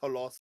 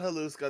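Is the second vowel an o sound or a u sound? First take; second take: o sound; u sound. First: The second vowel is an o sound. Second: The second vowel is a u sound. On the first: The speaker calls it right. "It's Holoska" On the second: The speaker calls it wrong. "It is not Haluska"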